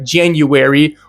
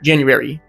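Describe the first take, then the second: First: Each syllable is sounded out separately. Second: The syllables run together into fewer sounds. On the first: "say properly like January" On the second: "that sounds like it's all mushed together"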